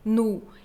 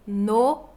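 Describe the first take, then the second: First: The vowel sounds close to u. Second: The vowel is a full, clear o. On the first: The speaker calls it right. "minha pronúncia é bem marcada como nu" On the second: The speaker calls it wrong. "nunca vamos pronunciar no ou nos. Um o bem feito"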